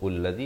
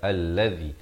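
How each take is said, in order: First: The word begins with a 'u' vowel. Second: The word begins with an 'a' vowel. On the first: The speaker calls it wrong. "atau ullazi" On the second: The speaker calls it right. "baca allazi"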